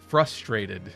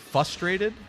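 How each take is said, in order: First: The R after the f sound is clearly pronounced. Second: The R after the f sound is dropped. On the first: The speaker calls it right. "there's an R in the word" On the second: The speaker calls it wrong. "some people don't pronounce the R in frustrated"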